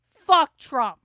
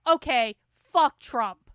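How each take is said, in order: First: Loud furious curse; angry shout. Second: Said in the usual way. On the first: Real, not acted. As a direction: bark it out in real anger. Learns Trump admitted he lost.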